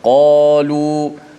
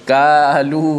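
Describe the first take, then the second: First: The first consonant is deep and heavy. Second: The first consonant is light, like a plain k. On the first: The speaker calls it right. "maka huruf Qaf dibaca dengan tebal" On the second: The speaker calls it wrong. "tidak boleh baca kalu, ha, ka tak boleh ya"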